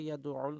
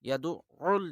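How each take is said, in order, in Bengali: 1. 'ain' বর্ণটি ছোট ও একক। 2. 'ain' বর্ণটি দ্বিত্ব ও জোরে বলা হয়। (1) "অনেকে বলে ইয়াদুউল" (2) "আইনের উপরে তাসদিদ জোর দিয়ে বলতে হবে"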